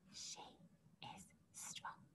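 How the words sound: The sentence is said in a whisper. "Can you whisper it?"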